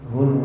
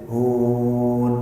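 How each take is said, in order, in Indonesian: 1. Bunyi n di akhir ditahan panjang. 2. Vokal u ditahan panjang. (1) "semisal tulisan H U N N N" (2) "bukan H U U U N"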